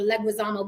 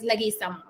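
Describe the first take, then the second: First: "Leguizamo" said leg-wih-ZAH-mo; "Leguizamo" with gwi and a buzzed z; American-sounding pronunciation. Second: "Leguizamo" said leh-gee-SAH-mo; "Leguizamo" with an unvoiced s for the z; proper Spanish pronunciation. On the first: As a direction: pronounce the u in "Leguizamo" as a w. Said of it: "it sounds more American". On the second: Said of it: "but it's Leguizamo". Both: Shown as a demonstration.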